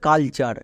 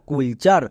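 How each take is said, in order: First: The first vowel sounds like 'uh' in 'cut'. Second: The first vowel sounds like 'oo' in 'cool'. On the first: The speaker calls it right. "But এর উচ্চারণ হবে কালচার" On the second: The speaker calls it wrong. "একে অনেকে ভুল করে উচ্চারণ করে কুল চার"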